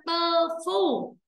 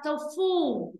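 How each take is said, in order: First: "tơ phu" with an uh in the first syllable; mispronounced tofu. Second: "tofu" with an oh in the first syllable; corrected tofu. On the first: Teacher shows students the mistake to avoid, "tơ phu" with uh. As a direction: say "tơ phu", both syllables held high and even. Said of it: "Không phải là tơ phu". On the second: Teacher corrects students' reading, slow "tofu" with oh. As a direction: say "tofu" slowly, oh then a falling foo. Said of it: "mà là tofu". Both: Shown as a demonstration.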